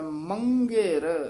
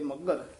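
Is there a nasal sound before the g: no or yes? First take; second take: yes; no. First: The word has a nasal before the g. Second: The word has no nasal before the g. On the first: The speaker calls it right. "ਪਰ ਇਹ ਟਿੱਪੀ ਲੱਗੀ ਹੋਈ ਹੈ ਮੰਗੇਰ, ਇਸ ਤਰ੍ਹਾਂ ਉਚਾਰਨ ਕਰਨਾ" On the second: The speaker calls it wrong. "ਆਮ ਪਾਠੀ ਸਿੰਘ ਜਿਹੜੇ ਆ ਉਹ ਮੱਗਰ ਹੀ ਕਹਿ ਜਾਂਦੇ ਹਨ"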